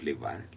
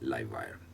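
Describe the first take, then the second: First: 'Live' has the short 'ih' vowel, like 'give'. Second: 'Live' has the long 'eye' vowel, like 'five'. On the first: The speaker calls it wrong. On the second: The speaker calls it right.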